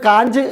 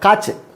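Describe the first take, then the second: First: A clear n consonant comes before the ch. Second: No separate n consonant comes before the ch. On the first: The speaker calls it wrong. "Malayali വായിക്കുമ്പോൾ അതിന് കാഞ്ച് എന്ന് വായിക്കും" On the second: The speaker calls it right. "പക്ഷേ കാച്ച് എന്നാണ് പറയുക"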